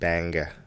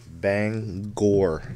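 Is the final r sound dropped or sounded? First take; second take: dropped; sounded. First: The word ends in an open vowel, no r. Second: The word ends with a clear r sound. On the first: The speaker calls it wrong. "not Banga" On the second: The speaker calls it right. "it's actually yeah, it's Bangor"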